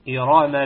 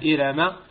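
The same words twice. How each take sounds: First: The r sound is heavy and full. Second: The r sound is light and thin. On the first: The speaker calls it right. "ولكن إرام ذات العماد بالتفخيم" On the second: The speaker calls it wrong. "لا نقرأها إرام"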